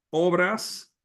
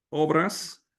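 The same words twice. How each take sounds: The two takes are said the same way.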